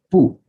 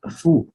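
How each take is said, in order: First: It begins with a p sound. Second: It begins with an f sound. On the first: The speaker calls it wrong. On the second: The speaker calls it right.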